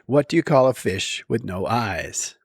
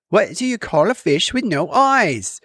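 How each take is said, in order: First: It is said in the speaker's ordinary accent. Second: It is said in an imitated British accent.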